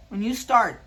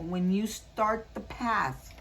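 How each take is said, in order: First: Much louder, hammering home the word start; emphatic. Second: Drawn out and slow, leading up to the point. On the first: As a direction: punch it out loud to drive it home. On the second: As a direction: say it slowly, setting it up. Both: Real, not acted. Repeats the card message for emphasis.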